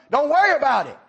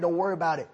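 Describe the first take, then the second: First: Exasperated. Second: Said in the usual way. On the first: Acted. Man snaps at pestering boy.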